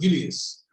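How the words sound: The name is said with a Dutch pronunciation. This is how the name is said in the Netherlands. "but actually in Holland, Julius"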